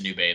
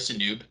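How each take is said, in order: First: The name ends with a vowel after the b. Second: The name ends on the b sound. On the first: The speaker calls it wrong. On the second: The speaker calls it right.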